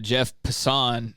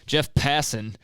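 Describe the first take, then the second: First: The name is given a fancier pronunciation. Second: The name is given a plain pronunciation. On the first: The speaker calls it wrong. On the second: The speaker calls it right.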